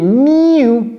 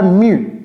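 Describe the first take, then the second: First: The syllable has a 'y' glide, like 'myoo'. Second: The syllable starts with a plain 'moo' sound. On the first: The speaker calls it right. "C'est miu, comme s'il y avait deux syllabes" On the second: The speaker calls it wrong. "c'est pas mu"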